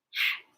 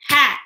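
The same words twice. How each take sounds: First: HAT in a hushed whisper. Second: Said in the usual way. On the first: Shown as a demonstration. Teacher leading children through word parts, Hat whispered. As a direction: whisper Hat as one short beat. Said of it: "Whisper with me". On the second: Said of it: "Break words into parts".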